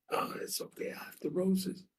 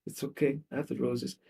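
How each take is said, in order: First: Whispery, tearful self-comfort; breaking from whisper into soft higher voice; acted crying. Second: Soft, voiced self-reassurance; quietly acted consolation through hurt; understated weeping act. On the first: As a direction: play a crying woman consoling herself. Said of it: "and she's crying". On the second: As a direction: reassure yourself softly, lightly tearful. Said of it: "and she's weeping".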